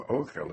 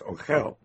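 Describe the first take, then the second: First: The stress is on the first syllable. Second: The stress is on the last syllable. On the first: "instead of ochel" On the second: "By stressing the final syllable"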